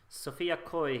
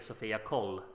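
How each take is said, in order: First: The double L is sounded like a Y. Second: The double L is sounded like an L. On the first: "I'm trying to be Spanish here" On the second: "it's actually Sofia Col"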